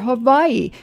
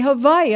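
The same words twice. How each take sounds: First: The middle consonant is a W sound. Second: The middle consonant is a V sound.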